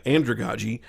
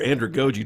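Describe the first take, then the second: First: "andragogy" in the first of two accepted pronunciations; "andragogy" as AN-druh-gah-jee; first pronunciation variant. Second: "andragogy" in the second accepted pronunciation, with a long o; "andragogy" as AN-druh-go-jee; alternative pronunciation. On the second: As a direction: say "andragogy" with GO in the third syllable. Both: Shown as a demonstration. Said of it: "depending on how you want to pronounce it".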